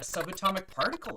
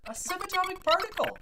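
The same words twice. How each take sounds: First: Said in the usual way. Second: Very high, loud exclamation of wonder; amazed repeat. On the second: Acted. Bartender bragging about a regular patron, amazed exclamation. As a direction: marvel at the unlikely guest.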